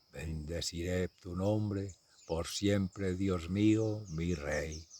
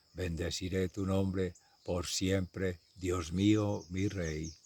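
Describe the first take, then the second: Both takes have the same delivery.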